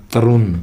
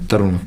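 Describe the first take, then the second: First: "तरुण" ending in a plain n, as "तरुन"; tongue-tip n at the end of "तरुण"; no retroflex in "तरुण"; English pronunciation. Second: "तरुण" with a retroflex ण; Hindi-style "तरुण"; Indian pronunciation. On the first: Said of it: "न बोलेगा". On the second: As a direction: curl the tongue back for the last sound of "तरुण". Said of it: "हम बोलेंगे T A R यू एन". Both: Shown as a demonstration.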